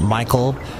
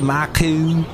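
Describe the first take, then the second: First: The name is said in a plain accent. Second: The name is said in a Southern accent. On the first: "instead of Michael" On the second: "I have a southern friend who calls me"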